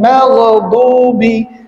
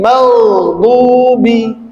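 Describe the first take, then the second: First: The gh sound is cut short. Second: The gh sound is held longer. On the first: The speaker calls it wrong. "bukan maghdubi" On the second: The speaker calls it right. "dia harus ditahan"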